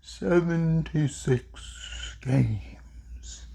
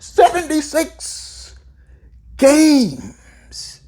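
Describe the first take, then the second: First: Slow, hushed delivery, fading to a whisper; slow, deliberate. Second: High, drawn-out exclamation with a pause; slow, emphatic. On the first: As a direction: draw it out softly, word by word. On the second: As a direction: repeat it slowly in amazement, pitched right up. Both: Real, not acted. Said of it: "I'm gonna say it slowly".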